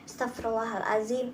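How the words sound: It is said slowly with heartfelt, earnest feeling. The speaker truly means the plea. The speaker calls it right. "Tapi dihayati"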